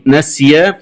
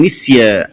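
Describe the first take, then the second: First: Said in the usual way. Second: نسيا said "nisya"; kasra on noon. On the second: Shown as a demonstration. Teacher showing the variant, نسيا with i after n. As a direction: open نسيا with a short i. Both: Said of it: "قرأها بكسر النون".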